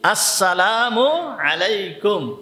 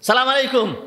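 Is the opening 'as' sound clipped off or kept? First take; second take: kept; clipped. First: Every syllable is said, including the opening syllable. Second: The opening syllable is dropped and the words are clipped. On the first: The speaker calls it right. "উচ্চারণ কি?" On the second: The speaker calls it wrong. "সালামটা ঠিক মতো উচ্চারণ হয় না"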